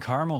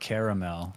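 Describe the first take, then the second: First: The word is said with two syllables. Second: The word is said with three syllables. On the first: "it's just always been caramel for me" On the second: "like how it's spelled"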